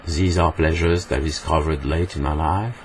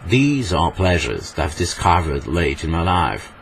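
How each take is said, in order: First: English in an even French accent; unexaggerated French-accented English. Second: Slow, theatrical English accent; hammed-up English accent, drawn out; overacted English accent. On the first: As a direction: say it as a French speaker would, rising at the end. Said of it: "En français, on dirait". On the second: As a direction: savour each word in an exaggerated English accent. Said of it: "En anglais surjoué, on dirait". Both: Shown as a demonstration.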